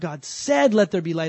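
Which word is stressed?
said. The word "said" carries the main stress. The act of speaking itself has power. The speaker calls it wrong. "they put the emphasis on the wrong word"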